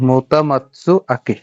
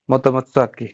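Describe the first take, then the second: First: "মোতামাতসু আকি" drawn out slowly, part by part; slowly sounded out. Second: Said in the usual way. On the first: Shown as a demonstration. Teacher reassembles the spelled name, slowly saying "মোতামাতসু আকি" in parts. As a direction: stretch out "মোতামাতসু আকি" syllable by syllable.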